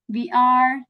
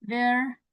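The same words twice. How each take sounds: First: Said in the usual way. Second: "we're" joined into one syllable; contracted form. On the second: Shown as a demonstration. Teacher showing learners how to contract, contracted "we're". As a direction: say "we're" as a single word. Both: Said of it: "you can contract it like this".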